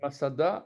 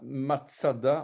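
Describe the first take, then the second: First: The name is pronounced the French way. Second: The name is pronounced the Hebrew way.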